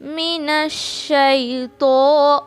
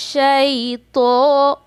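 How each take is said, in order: First: मिनश शैतो with a short, unstretched शै; मिनश शैतो recited carefully with short शै; short shai, correct. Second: शैतो with the शै dragged out long; शैतो said slow with a drawn-out first syllable; wrong stretched shai. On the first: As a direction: keep the शै in शैतो short and clean. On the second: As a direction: drag the शै in शैतो too long, the mistake. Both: Shown as a demonstration. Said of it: "शै को नहीं खींचेंगे".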